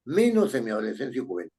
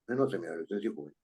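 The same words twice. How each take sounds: First: Quick read-aloud of the sentence; reading the line. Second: Softer, very fast repeat of the line; quiet repeat. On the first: Teacher reading the sentence to the class, quickly. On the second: Teacher rechecking the sentence for students, softly and fast. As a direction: murmur it again quickly to yourself. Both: Shown as a demonstration. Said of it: "repeats it quieter".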